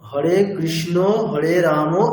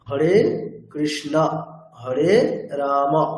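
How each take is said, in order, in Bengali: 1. অন্তর্নিহিত স্বরধ্বনিটি 'o' এর মতো শোনায়। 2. অন্তর্নিহিত স্বরধ্বনিটি 'a' এর মতো শোনায়।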